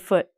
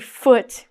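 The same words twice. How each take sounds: First: The final T is not clearly pronounced. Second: The final T is clearly pronounced. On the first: The speaker calls it right. "It sounds like we're not saying the T" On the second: The speaker calls it wrong. "We don't say foot"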